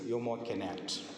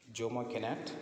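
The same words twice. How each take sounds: First: The J sound at the start is silent. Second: The J sound at the start is pronounced. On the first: The speaker calls it right. "Here J is silent. It is" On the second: The speaker calls it wrong. "You should not pronounce it as"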